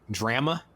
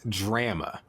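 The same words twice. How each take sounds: First: The first vowel is said short. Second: The first vowel is drawn out long. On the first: The speaker calls it right. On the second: The speaker calls it wrong.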